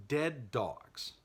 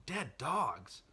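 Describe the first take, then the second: First: Said in the usual way. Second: Higher-pitched disbelieving echo; incredulous question. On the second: Acted. Voicing the listener's reaction to the reveal, incredulous question. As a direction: question it as if you misheard. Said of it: "I know what you're thinking".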